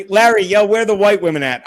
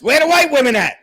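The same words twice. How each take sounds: First: Loud call in near-usual pitch; loud, comic film-line holler; movie-quote call-out. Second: High, loud comic holler; loud, high-pitched Blazing Saddles quote; movie-quote holler. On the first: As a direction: call out to Larry, loudly quoting a film. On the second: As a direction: holler the film line, pitched way up. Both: Acted. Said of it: "A la Blazing Saddles".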